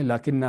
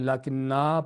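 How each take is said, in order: First: The final vowel is kept short. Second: The final vowel is drawn out long. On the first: The speaker calls it right. "असल में लाकिन्ना है" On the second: The speaker calls it wrong. "मुमकिन है कि पढ़ने वाले लाकिन्ना पढ़ जाए इसको"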